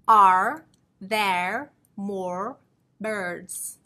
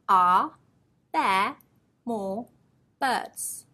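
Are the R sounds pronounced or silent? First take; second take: pronounced; silent. First: The R sounds are clearly pronounced. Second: The R sounds are left silent. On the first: The speaker calls it wrong. "Not ... Sounds very strange" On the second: The speaker calls it right. "Although we have an R in each of those words, we do not pronounce them"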